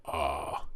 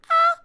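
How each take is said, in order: First: "ah" pitched very deep; low register. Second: High-pitched "ah"; upper register. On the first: Showing students the lowest register, deep "ah". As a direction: drop right down low on "ah". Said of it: "is the low register". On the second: Showing students the upper register, high "ah". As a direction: pop "ah" up into the top register. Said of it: "is the upper register". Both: Shown as a demonstration.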